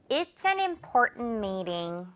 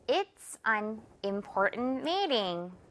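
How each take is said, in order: First: It is said at normal speed. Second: It is said more slowly.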